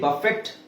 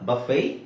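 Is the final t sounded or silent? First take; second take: sounded; silent. First: The word ends with a sounded t. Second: The word ends without any t sound. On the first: The speaker calls it wrong. "ಬಫೆಟ್ ಅಲ್ಲ" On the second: The speaker calls it right.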